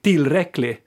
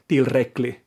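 First: The stress is on the first syllable. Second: The stress is on a later syllable. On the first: This is the Sweden Swedish way. "I Sverige mer tryck överlag kanske på första stavelsen" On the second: This is the Finland Swedish way. "som jag säger"

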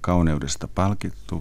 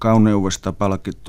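First: It is spoken in standard Finnish. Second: It is spoken in broad Savo dialect. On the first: The speaker calls it wrong. "Jos sen sanoo yleiskielellä" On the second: The speaker calls it right. "savolaisia sanontoja"

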